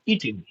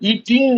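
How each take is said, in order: First: The final ng sound is dropped. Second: The final ng sound is clearly pronounced. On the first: "एनजी pronounce नहीं कर रहे हैं" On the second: "ईटिंग नहीं बोल रहे हैं हम"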